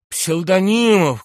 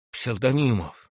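First: High, loud, drawn-out name; desperate calling out. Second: First appeal, only lightly raised; restrained calling out. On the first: General reaches out to his subordinate, desperate calling out. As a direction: stretch the name into a cry for help. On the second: General calls his subordinate for help, restrained calling out. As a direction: call the name without full force. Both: A narrator's reading. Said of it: "кричал Иван Ильич".

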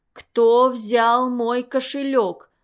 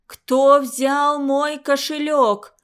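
First: Slow, breathless furious demand; choking with rage. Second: Slow, louder, rasped threat; hoarse menacing growl. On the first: Old matron demands her purse, choking with rage. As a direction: choke the words out in fury. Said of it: "Задыхаясь от ярости". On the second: Matron interrogates frozen pupils, rasping with menace. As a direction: rasp it out even more menacing. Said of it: "Ещё страшнее прохрипела она". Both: A narrator's reading.

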